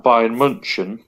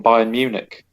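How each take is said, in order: First: "Bayern München" with the German name of the city; native German name. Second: Said in the usual way. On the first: Shown as a demonstration. Fan arguing about club names, "München" in its German form. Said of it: "refer to in their native language". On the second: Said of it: "We call them Bayern Munich".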